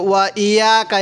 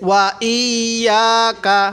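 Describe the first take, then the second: First: "ইয়াকা" quickly, without holding the doubled y; mistaken undoubled y. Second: "ইয়াকা" with the y doubled and held, long aa. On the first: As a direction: skim over the y in "ইয়াকা" as a learner's mistake. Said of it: "এই ভুলটা করেন". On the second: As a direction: slowly lean on the doubled y in "ইয়াকা". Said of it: "তো তাসদিদ ধরলাম". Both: Shown as a demonstration.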